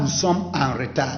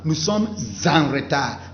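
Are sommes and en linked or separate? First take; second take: separate; linked. First: Sommes and en are said separately, without linking. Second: Sommes is linked smoothly into en. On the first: The speaker calls it wrong. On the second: The speaker calls it right. "il faut prononcer ça ensemble"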